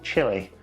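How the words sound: The name is said with a British pronunciation. This is how the speaker's own community says it. "as we would say"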